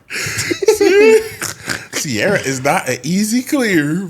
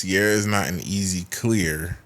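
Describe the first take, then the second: First: The line is read with strong passion and energy. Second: The line is read in a plain, flat way.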